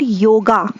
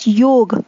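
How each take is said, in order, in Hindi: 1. शब्द के अंत में एक अतिरिक्त स्वर ध्वनि जोड़ी जाती है। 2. शब्द एक व्यंजन ध्वनि पर खत्म होता है। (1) "they put an extra ... in this simple word" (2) "pronounce this amazing word as योग"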